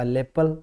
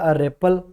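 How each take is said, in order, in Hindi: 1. पहले स्वर के बाद वाला व्यंजन l है। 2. पहले स्वर के बाद वाला व्यंजन r है। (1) "तुतलाने वाले जो हैं वो इसको र को ल बोलेंगे" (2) "एक बोलेगा अरेपल"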